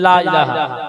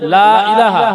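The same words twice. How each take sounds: First: The first vowel is short, not drawn out. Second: The first vowel is drawn out long. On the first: It would mean there is a god besides Allah. The speaker calls it wrong. "টান দেয় না" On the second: It means there is no god but Allah. The speaker calls it right. "এখানে একালি টান দেবেন"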